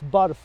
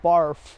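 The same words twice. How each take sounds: First: The word is said with Punjabi sounds. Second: The word is said with English sounds. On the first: It is the Punjabi word for ice. The speaker calls it right. "It's barf" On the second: It is the English word for vomiting. The speaker calls it wrong. "not barf"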